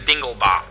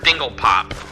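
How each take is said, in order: First: The second part starts with a B sound. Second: The second part starts with a P sound. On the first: The speaker calls it right. "It's actually Dinglebop" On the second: The speaker calls it wrong. "it was mispronounced as Dinglepop"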